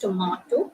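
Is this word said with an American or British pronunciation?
British. It is said with a British pronunciation. "British English, it's tomato"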